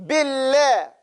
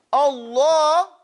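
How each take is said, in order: First: Billah with a light, skinny lam; thin the lam in Billah; Billah, lam kept thin. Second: Allah with a full, round, heavy lam; Allah, fat thick lam. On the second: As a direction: make the lam big and round. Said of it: "Now you got a big, big lamb". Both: Shown as a demonstration.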